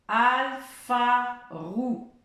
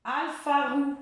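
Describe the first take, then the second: First: Alpha roux drawn out very slowly, rising; teacher repeating slowly. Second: Alpha roux higher, roux stressed; teacher quizzing; game word. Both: Shown as a demonstration. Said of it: "je vais rajouter une syllabe".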